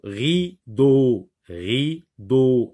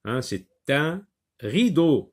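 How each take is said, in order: First: Rideau said clearly and slowly, both syllables ri-deau even; slow teacher model word. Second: Said in the usual way. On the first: Shown as a demonstration. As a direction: sound out Rideau for a child to hear the d. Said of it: "Est-ce que tu entends le son d?". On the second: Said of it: "Regardez, on l'a déjà vu".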